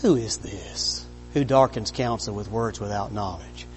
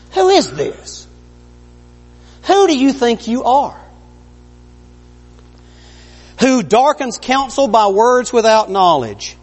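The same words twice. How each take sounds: First: Low, soft, even question; quiet and calm. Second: High, booming God rebuke; stern rebuke. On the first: Preacher showing God asking Job quietly, hushed. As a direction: ask it gently, almost under your breath. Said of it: "he said it more like". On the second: Preacher voicing God's stern challenge to Job, booming. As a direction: thunder it down at Job. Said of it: "I don't know what about, about inflection". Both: Shown as a demonstration.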